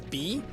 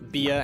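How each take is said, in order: First: The name is said as one syllable. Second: The name is said as two syllables. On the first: "pronounce it as B" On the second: "stop pronouncing it as Bia"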